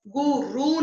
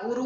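First: गुरु stretched to "goo-roo"; wrong long vowels. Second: Said in the usual way. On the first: Shown as a demonstration. Teacher correcting a mistake, गुरु as long "goo-roo". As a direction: draw out both vowels of गुरु. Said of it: "नहीं होता". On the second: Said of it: "होता है".

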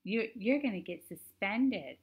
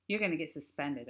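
First: High, slow prissy mimicry; mock him in a prissy whine. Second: Said in the usual way. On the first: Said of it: "made his voice real prissy". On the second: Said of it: "I didn't say it like that".

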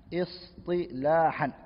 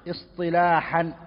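First: Istilahan drawn out very slowly and softly, each syllable with a clear throaty h; careful pronunciation. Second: Said in the usual way. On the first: Shown as a demonstration. Teacher modelling Istilahan for students, slow careful pronunciation.

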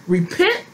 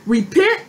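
First: Low repent. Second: Repent called out high with a rising tune. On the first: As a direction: drop Repent down low and settle it. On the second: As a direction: lift Repent high and urgent. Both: Shown as a demonstration. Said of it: "Hold on, let me go back".

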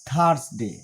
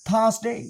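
First: "থার্সডে" as THARS-de, R sounded; common mispronunciation. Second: "থার্সডে" as THAAS-day, R silent; higher R-less "থার্সডে" with full -day; British pronunciation. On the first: Teacher shows what learners usually say, R in "থার্সডে". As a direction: lower "থার্সডে" with R and short ending. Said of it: "আমরা বলি". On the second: Teacher corrects in British accent, R-less "থার্সডে". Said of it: "British accent অনুযায়ী". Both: Shown as a demonstration.

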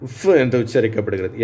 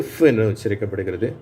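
No difference in how they are said.

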